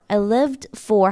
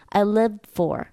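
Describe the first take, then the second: First: The final d is clearly pronounced. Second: The final d is held back, unreleased. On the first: "드 발음 해줄 수도 있어요" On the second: "아예 드 발음을 안 넣어주고 그냥 막아주는 거예요"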